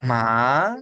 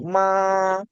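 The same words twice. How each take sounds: First: Teacher shows students second tone: "ma" rising. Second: "ma" held high and flat, no movement; teacher shows students first tone: "ma" high and flat; level first tone. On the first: "ma" shot upward without hesitating. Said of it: "nada dua itu naik". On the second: Steady high "ma" like a straight line. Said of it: "Oh, nada satu". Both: Shown as a demonstration.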